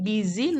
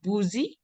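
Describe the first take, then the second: First: The first vowel sounds like 'i'. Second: The first vowel sounds like 'oo'. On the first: The speaker calls it right. "Ini busy" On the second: The speaker calls it wrong. "not boozy"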